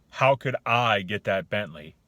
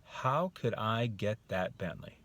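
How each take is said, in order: First: Loud, slow, scornful question; disbelieving tone. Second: Slow, thoughtful question; open wondering. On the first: Coach demonstrating the closed attitude, disbelieving. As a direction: say it as if there's no way. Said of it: "The tone, the attitude". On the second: Coach demonstrating the other one, thoughtful wondering. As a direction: ask with a little opening of belief. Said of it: "It's like thought". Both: Shown as a demonstration.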